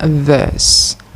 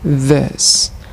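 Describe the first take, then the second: First: The vowel is pronounced as an E sound. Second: The vowel is pronounced as an E sound.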